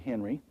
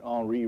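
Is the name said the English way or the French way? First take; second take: English; French. First: The name is said with an English pronunciation. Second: The name is said with a French pronunciation. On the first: The speaker calls it wrong. "rather than Henry" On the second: The speaker calls it right. "he was from France, and that's why you pronounce that Henri"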